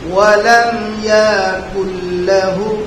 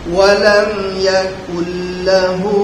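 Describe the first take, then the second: First: A vowel is drawn out with a drawl. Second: The vowels are kept short, with no drawl. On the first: The speaker calls it wrong. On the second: The speaker calls it right.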